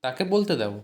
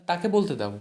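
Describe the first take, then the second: No difference in how they are said.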